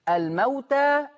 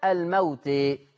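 First: The final vowel is a fully open a. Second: The final vowel is raised toward e. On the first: "برضو زي استوى" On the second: "برضو زي استوى"

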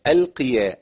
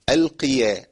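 The two takes are said the same way.

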